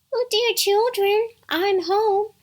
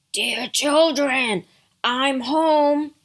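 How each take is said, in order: First: Very high mother-goat falsetto; wolf putting on a sweet mummy voice; soft, tender imitation. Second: Loud, gruff wolf calling out; big bad wolf posing as mother; deep gruff wolf. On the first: Wolf poses as Mother Goat at the door, tender falsetto. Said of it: "made his voice soft and tender". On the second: Wolf calls to the kids at the door, deep and gruff. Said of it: "You have a deep, gruff voice". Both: A narrator's reading.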